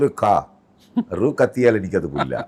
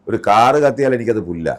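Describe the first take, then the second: First: The phrase is broken up inside the word car. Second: The phrase is said smoothly in one go. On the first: The speaker calls it wrong. "ഇങ്ങനെയാ പറഞ്ഞിരിക്കുന്നത്" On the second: The speaker calls it right. "ആ ഒറ്റ sentence ഒരുമിച്ച് പറയണം"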